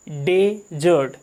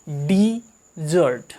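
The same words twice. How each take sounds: First: डेजर्ट drawn out slowly as DE-zert, stress on the first syllable; slow careful demo. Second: डिजर्ट drawn out slowly as di-ZERT, stress on the second syllable; slow careful demo. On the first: Teacher slowly models डेजर्ट, meaning the desert. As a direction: stretch out डेजर्ट, leaning on the first half. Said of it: "इसको पढ़ते हैं डेजर्ट". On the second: Teacher slowly models डिजर्ट, meaning the sweet. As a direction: stretch out डिजर्ट, leaning on the second half. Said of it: "इसको हम पढ़ते हैं डिजर्ट". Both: Shown as a demonstration.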